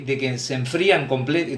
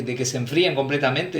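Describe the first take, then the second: First: "enfrían" said as a slip, then cut off mid "comple-"; false start on "enfrían", cut short; slip of the tongue. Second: "enfríen" fixed and said through to the end; corrected take, "enfríen" and a full "completamente"; self-correction. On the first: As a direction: stumble on "enfrían" and break off. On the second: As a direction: correct yourself with "enfríen" right away. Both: Real, not acted.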